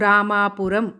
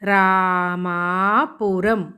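First: The vowels are said at normal length. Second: The long vowels are drawn out extra long. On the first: This is how the word is usually spoken. "మామూలుగా పలికితే మనము రామాపురం అని పలుకుతాం" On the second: This helps show where the long vowels are for writing. "ఇక్కడ ఏ అక్షరానికి దీర్ఘం తీస్తున్నాము"

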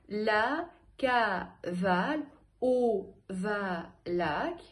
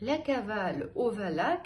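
First: It is said slowly, separating each syllable. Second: It is said quickly, at a brisk pace. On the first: "По слогам" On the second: "Побыстрее"

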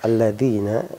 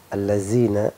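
First: The consonant is a 'th' sound as in 'this'. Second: The consonant is a plain 'z' sound. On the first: "alladzina pakai dal" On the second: "dibaca zai"

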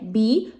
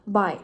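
First: The vowel sounds like the English word 'bee'. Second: The vowel sounds like the English word 'buy'. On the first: The speaker calls it wrong. "czyli nie bi, tak jak my mówimy" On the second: The speaker calls it right. "Po angielsku czyta się jako bilingual"

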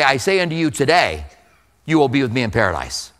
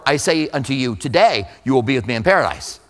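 First: The pause comes after the word today. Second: The pause comes before the word today.

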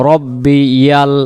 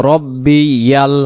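Both takes have the same delivery.

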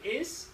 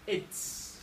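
First: The word ends in s with no t sound. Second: The word ends in a clear ts sound. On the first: The speaker calls it wrong. "You say is" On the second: The speaker calls it right. "I say it's"

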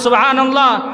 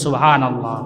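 First: The word is said even more loudly. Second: The word is said loudly. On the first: "আরও জোরে বলি" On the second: "জোরে বলি"

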